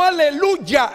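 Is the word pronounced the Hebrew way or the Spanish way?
Spanish. The word has a plain Spanish pronunciation. The speaker calls it wrong. "pero no Aleluya en castellano"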